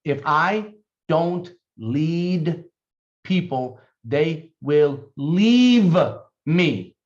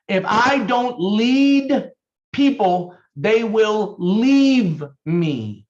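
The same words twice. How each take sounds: First: Very slow, each word set apart; spaced-out dictation pace. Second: Slow, higher and louder, words pressed out; slow, forceful repeat; emphatic slow dictation. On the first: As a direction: dictate it slowly so they can write. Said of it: "Please write this down". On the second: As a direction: drive the rule home for note-takers. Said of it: "Write it down". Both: Shown as a demonstration.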